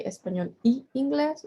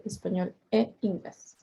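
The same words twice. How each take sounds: First: "y" before "inglés" said as a second ee, español y inglés; wrong form with Y. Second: "e" before "inglés" said as eh, español e inglés; correct form with E. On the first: Teacher showing students what not to say, "y" as ee before "inglés". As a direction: say "y" as ee, running into the ee of "inglés". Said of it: "so we don't say". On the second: Teacher showing students the right link, "e" as eh before "inglés". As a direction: say "e" as a clear eh, apart from "inglés". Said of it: "we say español e inglés". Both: Shown as a demonstration.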